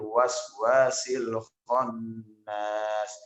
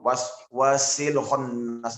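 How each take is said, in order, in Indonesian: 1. Frasa itu diucapkan dengan pelan dan tenang. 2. Frasa itu diucapkan dengan cepat dan tergesa-gesa. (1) "Pelan-pelan saja" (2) "jangan terburu ... tergesa-gesa"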